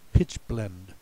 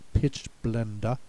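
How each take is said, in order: First: The word is said with English pronunciation. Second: The word is said with German pronunciation. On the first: "but we pronounce it Pitchblende" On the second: "it should be pronounced Pitchblende in German"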